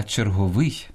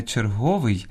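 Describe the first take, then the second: First: Черговий stressed on final ВИЙ; end-stressed черговий; stress on last syllable. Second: Черговий stressed on ГО; wrong middle stress. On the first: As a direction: say чер-го-ВИЙ. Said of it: "Слід казати". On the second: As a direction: say чер-ГО-вий. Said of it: "Слід казати не черговий". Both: Shown as a demonstration.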